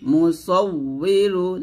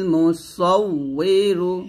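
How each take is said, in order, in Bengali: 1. মাঝের ব্যঞ্জনটি একটি w ধ্বনি। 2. মাঝের ব্যঞ্জনটি একটি w ধ্বনি।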